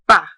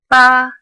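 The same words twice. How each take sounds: First: The pitch falls from high to low. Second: The pitch stays high and level. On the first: "starts at the top and then goes down" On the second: "a flat tone that is high and level"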